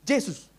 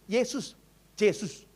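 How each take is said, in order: First: Yesus said as Jesus with a j; Batak Jesus pronunciation. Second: Yesus, Yesus said slowly and softly; Yesus taught slowly. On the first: Retold or imitated. Batak elder attempts Yesus as Jesus with j. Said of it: "Yesus, Amang". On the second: Shown as a demonstration. Pastor teaches the Batak elder to say Yesus, slow. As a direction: model Yesus gently, drawn out. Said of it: "coba dulu bilang gini".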